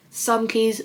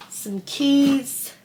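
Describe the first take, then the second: First: Said in the usual way. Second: Higher, drawn-out reminder to herself; sing-song the item, higher; raised pitch. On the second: Real, not acted.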